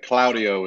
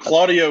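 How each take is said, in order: First: The name is said with an Italian pronunciation. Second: The name is said with an American pronunciation. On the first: "the proper way you would say it in Italian" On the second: "the way, you know, Americans say it"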